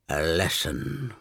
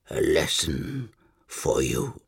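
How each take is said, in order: First: Low, slow dying croak. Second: Low, slow gurgle through blood; gurgling croak. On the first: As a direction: croak it through blood. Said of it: "Erebus croaked finally". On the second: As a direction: force the words out through blood. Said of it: "gurgling his words through blood". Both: Acted.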